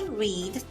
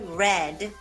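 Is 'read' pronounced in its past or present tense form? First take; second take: present; past. First: Read is pronounced in its present-tense form. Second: Read is pronounced in its past-tense form. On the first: It happens regularly now. "The first one is in present tense, so we'll say" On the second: It happened in the past. "the second one is in past tense, so we'll say"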